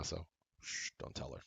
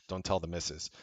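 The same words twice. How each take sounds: First: Much softer, almost whispered secret; conspiratorial hush. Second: Said in the usual way. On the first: Pretend. Husband begging viewers not to tell his wife, hushed. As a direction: lean in and keep it from the wife.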